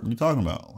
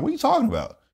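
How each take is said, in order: First: Said in the usual way. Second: High, baffled question; repeated question, pitched way up in confusion; confused disbelief. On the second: Retold or imitated. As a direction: ask it like the ground just vanished. Retold confusion, repeated higher.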